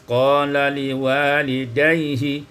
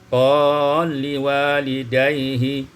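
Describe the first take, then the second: First: The lam is sounded separately with its vowel. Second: The lam merges into the next consonant.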